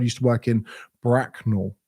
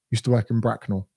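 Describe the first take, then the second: First: Lingering delivery. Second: Said in the usual way. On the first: Real, not acted. First take, lingering before town name.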